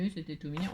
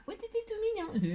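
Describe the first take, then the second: First: Said in the usual way. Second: Soft, very high cutesy voice; cutesy squeal. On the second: Pretend. Crafter cooing over her decorated box, cutesy high voice. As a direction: coo it in a tiny high voice.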